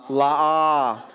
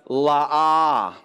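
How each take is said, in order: No difference in how they are said.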